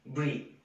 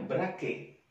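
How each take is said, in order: First: It is read with an English pronunciation. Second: It is read with an Indonesian spelling pronunciation. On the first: The speaker calls it right. "dalam bahasa Inggris kita harus membacanya" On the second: The speaker calls it wrong. "ini kalau orang Indonesia membacanya"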